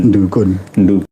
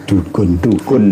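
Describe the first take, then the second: No difference in how they are said.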